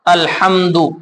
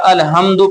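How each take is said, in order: First: The h is a deep breathy throat sound. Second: The h is a light plain breath sound. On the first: All praise is for God. The speaker calls it right. "हमने पढ़ा हा अल्हम्दु" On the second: The meaning changes into something offensive. The speaker calls it wrong. "अल्हम्दु की जगह अलहम्दु पढ़ेंगे, तो माना तब्दील हो जाएगा"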